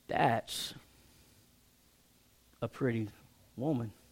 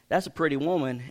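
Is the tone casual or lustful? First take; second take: lustful; casual. First: It is said in a drawn-out, leering tone. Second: It is said in a plain, casual tone. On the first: He is ogling her with desire. The speaker calls it wrong. "and going" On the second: He simply notices she is attractive. The speaker calls it right. "There's a difference between saying, hey"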